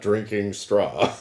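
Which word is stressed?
straw. The stress falls on the word straw. Someone is drinking straw itself. The speaker calls it wrong. "not drinking straw"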